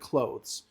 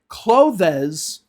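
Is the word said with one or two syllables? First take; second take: one; two. First: The word is said with one syllable. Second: The word is said with two syllables. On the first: The speaker calls it right. "it's one syllable" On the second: The speaker calls it wrong. "They say clothes instead of clothes. ... It's not two syllables"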